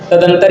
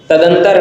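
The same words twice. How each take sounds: The two takes are said the same way.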